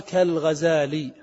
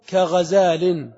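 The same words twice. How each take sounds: First: كالغزال slowly, ending in a long "i" with no n; without tanween. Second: كغزال slowly, ending in a clear "-in"; with tanween. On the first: Teacher showing the word after "al" came, كالغزال without final n. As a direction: draw out كالغزال and leave off the final n. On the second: Teacher showing the original form before "al" came, كغزال ending in "-in". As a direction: stretch كغزال out and sound the final n of tanween. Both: Shown as a demonstration. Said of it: "بلا تنوين".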